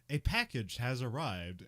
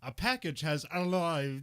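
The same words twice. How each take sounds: First: It is said with a plain R in 'arrived'. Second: It is said with an L in 'arrived'.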